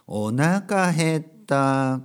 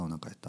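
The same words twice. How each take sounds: First: It is said at a normal speed. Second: It is said quickly.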